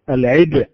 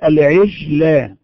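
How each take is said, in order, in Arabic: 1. الجيم صوت شديد ومنقطع. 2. الجيم رخو وقريب من sh.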